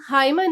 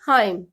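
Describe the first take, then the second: First: The word ends with an audible n sound. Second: The word ends on m with no n. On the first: The speaker calls it wrong. "हाइमन नहीं बोलेंगे" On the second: The speaker calls it right. "हम बोलेंगे हाइम"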